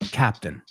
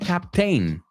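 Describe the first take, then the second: First: The last syllable is said reduced, like 'ten'. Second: The last syllable is said fully, like 'tain'. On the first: The speaker calls it right. "sin la I, y cambiamos la A a una E" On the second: The speaker calls it wrong. "we don't say captain"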